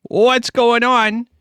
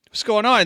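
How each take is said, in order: First: WHAT'S pulled up high and loud, very slow; hyped greeting. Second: Said in the usual way. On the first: Acted. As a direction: drag out the greeting to the whole chat. Hyped stream opening.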